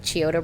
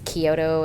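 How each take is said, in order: First: The name begins with a ch sound. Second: The name begins with a k sound. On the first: The speaker calls it wrong. "I was pronouncing it with the C H" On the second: The speaker calls it right. "they said their own name and it's Kyoto"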